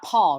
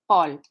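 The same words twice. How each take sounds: First: The P is released with a puff of air. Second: The P is released without a puff of air. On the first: The speaker calls it wrong. "but it's not Paul" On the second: The speaker calls it right. "in French"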